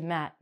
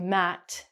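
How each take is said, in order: First: The final T is cut off and not released. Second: The final T is clearly pronounced. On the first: The speaker calls it right. "we say Matt" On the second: The speaker calls it wrong. "we don't say Matt"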